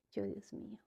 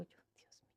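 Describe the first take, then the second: First: Said in the usual way. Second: Barely breathed, unvoiced whisper; whispered prayer. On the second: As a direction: whisper it to yourself in panic. Recuerda su angustia al llegar. (susurrando "yo, Dios mío" sin voz)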